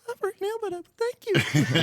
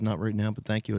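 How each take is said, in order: First: It is said in a high squeaky voice. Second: It is said in a plain normal voice.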